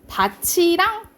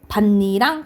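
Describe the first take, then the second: First: The middle consonant is a 'ch' sound. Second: The middle consonant is a doubled 'n' sound. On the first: The field together with something else. "다치랑 이렇게 발음이 나요. 조사로 쓰일 때" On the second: A furrow in a field. "반니랑 이렇게 발음이 나요"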